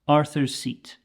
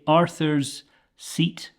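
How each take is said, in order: First: The two S sounds merge into one sound. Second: The two S sounds are separated by a pause. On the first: The speaker calls it right. "take those two S sounds and say them as one" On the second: The speaker calls it wrong. "with a clear pause in the middle"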